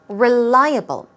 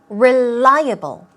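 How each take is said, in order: Both takes have the same delivery.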